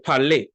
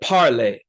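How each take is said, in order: First: The stress is on the last syllable. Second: The stress is on the first syllable. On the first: The speaker calls it right. "we say; the stress always falls on the last syllable" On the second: The speaker calls it wrong. "we don't say"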